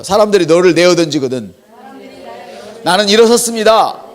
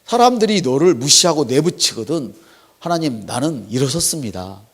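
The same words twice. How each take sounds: First: Loud call and response. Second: Said in the usual way. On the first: Shown as a demonstration. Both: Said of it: "한번 따라할까요".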